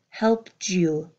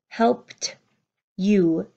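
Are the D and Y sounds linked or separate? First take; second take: linked; separate. First: The D and Y blend into one sound. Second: The D and Y are said separately. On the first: The speaker calls it right. "You hear helped you" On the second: The speaker calls it wrong. "You don't hear helped you"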